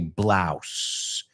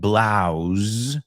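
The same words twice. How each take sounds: First: The word ends with a hissing S sound. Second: The word ends with a buzzing Z sound. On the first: The speaker calls it right. "como si fuera una S" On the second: The speaker calls it wrong. "como zeta"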